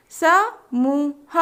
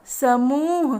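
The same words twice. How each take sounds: First: समूह stretched very slowly; slow drawn-out word. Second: Said in the usual way. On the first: Shown as a demonstration. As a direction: draw out समूह syllable by syllable. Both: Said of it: "तीन वर्ण वाले शब्द".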